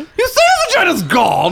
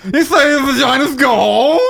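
First: It is said in a fairly normal voice. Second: It is said in an exaggerated, dim-witted voice.

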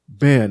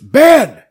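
First: The name is said in a plain, calm tone. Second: The name is said in an angry, scolding tone. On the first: The speaker calls it wrong. "It's not Ben" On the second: The speaker calls it right. "because he's mad"

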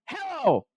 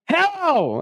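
First: It is said more quietly. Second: It is said more loudly.

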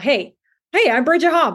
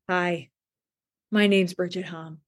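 First: It sounds warm, lively and human. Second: It sounds stiff and robotic, like a bot.

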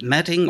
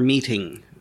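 First: The first vowel is short, like 'met'. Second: The first vowel is long, like 'meet'. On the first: "is it metting or meeting out justice?" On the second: "is it metting or meeting out justice?"

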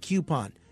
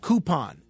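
First: The first syllable is kyoo, with a y sound. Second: The first syllable is koo, with no y sound. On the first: The speaker calls it wrong. "not coupon" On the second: The speaker calls it right. "There is no Q in coupon. Same ooh in routine"

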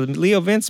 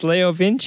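First: The name is pronounced as English spelling suggests. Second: The name is pronounced the Italian way. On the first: The speaker calls it wrong. "if you're a dumb redneck like me and you just see Leo Vince" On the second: The speaker calls it right. "because it's Italian"

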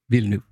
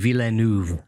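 First: The name is said with two syllables. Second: The name is said with three syllables. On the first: The speaker calls it right. "So it sort of drops the middle" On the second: The speaker calls it wrong. "with this sort of three-syllable last name"

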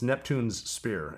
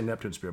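First: An s sound follows Neptune before Spear. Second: No s sound follows Neptune before Spear. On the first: The speaker calls it right. "It's Neptune's Spear, as in King Neptune's Spear" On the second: The speaker calls it wrong. "People say Neptune Spear, but that's, you know, it's the two S's in a row"

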